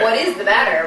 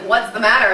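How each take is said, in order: First: What is is said as two full words. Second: What is is contracted to what's. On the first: This is the line as written. "my line is" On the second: This is how the line was actually said. "I came in and I was like"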